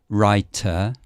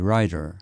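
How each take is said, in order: First: The middle t is a clear, crisp t. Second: The middle t is a soft flap. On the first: "you can ha- say like writer" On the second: "Americans might say rider"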